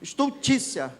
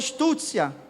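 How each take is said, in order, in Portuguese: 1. O som do meio 'ult' é pronunciado. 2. O som do meio 'ult' é omitido. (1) "eu não conseguia falar estu, estu, estultícia" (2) "Eu sempre falei estúcia"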